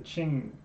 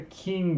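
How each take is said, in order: First: The word begins with a 'ch' sound. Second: The word does not begin with 'ch'. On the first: The speaker calls it right. "it's the Qing" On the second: The speaker calls it wrong. "it's not the Qing dynasty"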